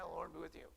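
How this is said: It is said in an offhand, dismissive way.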